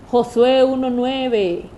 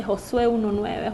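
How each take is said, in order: First: Slow, louder, measured man's voice from a dream; dream messenger voice. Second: Said in the usual way. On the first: Retold or imitated. A man in her dream tells her the verse, slow and louder. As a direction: spell out the verse slowly like a voice in a dream. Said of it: "un señor que me decía". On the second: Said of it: "con aquello marcado en mi mente".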